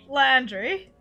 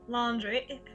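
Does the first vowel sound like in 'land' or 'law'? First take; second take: land; law. First: The first vowel sounds like 'land'. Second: The first vowel sounds like 'law'. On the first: The speaker calls it right. "say it properly" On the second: The speaker calls it wrong. "It just keeps coming out laundry"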